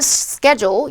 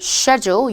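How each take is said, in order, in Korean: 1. 미국식 발음이에요. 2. 영국식 발음이에요.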